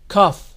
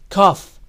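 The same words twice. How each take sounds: The two takes are said the same way.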